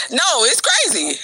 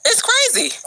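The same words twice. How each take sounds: First: Said in the usual way. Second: Crazy pitched up high in disbelief; high falling "crazy", amazed; high incredulous. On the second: Real, not acted. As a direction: say "crazy" much higher, incredulous. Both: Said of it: "repeats crazy for emphasis".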